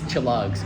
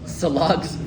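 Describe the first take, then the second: First: The word begins with a ch sound. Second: The word begins with an s sound. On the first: It is the real local way of saying it. The speaker calls it right. "a hard uh, C H sound" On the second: The speaker sounds like a non-native. The speaker calls it wrong. "Do I obviously look like I'm not native if I'm saying Salogs"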